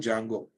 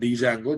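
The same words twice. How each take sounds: First: The word begins with a silent D. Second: The word begins with a sounded D. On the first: The speaker calls it right. "D silent" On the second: The speaker calls it wrong. "not Django"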